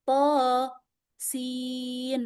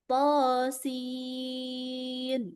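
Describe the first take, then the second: First: A pause separates the two letter names. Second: The two letter names run together without pause. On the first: The speaker calls it wrong. "nggak boleh ada jeda, nggak boleh ada nafas di tengah-tengah" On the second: The speaker calls it right. "Harus digabung"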